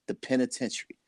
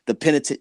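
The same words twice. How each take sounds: First: Much softer, the word just dropping off; quiet and bitter. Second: Bitter laugh. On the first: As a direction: let the penitentiary fall flat and quiet, almost under the breath. Son's whereabouts, dropped bitterly. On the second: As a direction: repeat the penitentiary through a rueful laugh, quickly. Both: Real, not acted.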